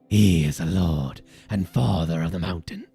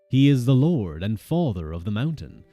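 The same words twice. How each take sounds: First: It is read in a put-on character voice. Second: It is read in an ordinary speaking voice. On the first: The speaker calls it right. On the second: The speaker calls it wrong.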